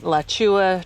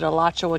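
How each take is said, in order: First: The name starts without the opening vowel. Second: The name starts with a full opening vowel. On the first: This is how people around here say the trail name. "they pronounce it Lachua Trail" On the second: This is how locals say the county name. "I know we pronounce it Alachua County"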